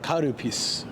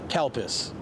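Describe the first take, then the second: First: It is said with a Japanese pronunciation. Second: It is said with an English pronunciation. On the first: "if it's Japanese, it'd be like Karupis" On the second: "I'm saying it the English way"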